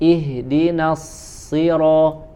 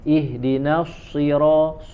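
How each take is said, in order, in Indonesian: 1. Bunyi s dibuat tanpa membulatkan bibir. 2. Bunyi s dibuat dengan bibir maju dan membulat.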